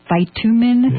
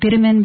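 First: The word is said with an American pronunciation. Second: The word is said with a Canadian pronunciation. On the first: "we call it here in the United States" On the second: "in Canada"

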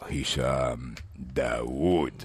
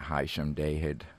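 First: The name is said with an Arabic accent. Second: The name is said with an English accent. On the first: The speaker calls it right. "I'll say it in real Arabic now" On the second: The speaker calls it wrong. "Not Hisham Dawood"

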